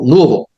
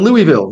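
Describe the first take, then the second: First: Louisville is said the way locals say it. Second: Louisville is said the way outsiders say it. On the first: The speaker knows the town. The speaker calls it right. "Just call it Louisville" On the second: The speaker has never been there. The speaker calls it wrong. "A lot of people never been there. Say, well, I'm going to Louisville"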